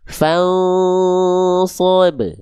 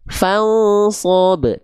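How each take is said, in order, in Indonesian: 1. Dengungnya ditahan selama dua ketukan. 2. Dengungnya dipotong pendek dan terburu-buru. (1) "harusnya ditahan dulu dua ha, dua harokat" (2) "terlalu tergesa-gesa"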